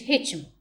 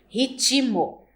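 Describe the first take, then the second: First: No extra vowel is inserted between consonants. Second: An extra vowel is inserted between consonants. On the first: "em vez de ritmo" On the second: "emissão de uma vogal entre consoantes"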